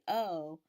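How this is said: The vowel is made at the back of the mouth. "O is produced at the back of your mouth"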